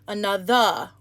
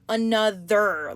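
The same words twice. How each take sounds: First: The final R sound is dropped. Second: The final R sound is strongly pronounced. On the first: "they won't say the R" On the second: "really emphasizing the E R"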